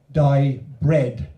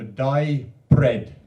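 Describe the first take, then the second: First: "Di bread" said loud and weighted on "Di"; Welsh trade naming. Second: "Di bread" drawn out slowly, weight on "bread"; Welsh trade naming. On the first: Poet showing how the Welsh name a tradesman, loud and firm. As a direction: announce "Di bread" firmly, louder on "Di". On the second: Poet explaining Welsh trade names, slow and deliberate. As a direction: slowly lay out "Di bread", falling on "bread". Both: Shown as a demonstration. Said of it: "is how they say it in Welsh".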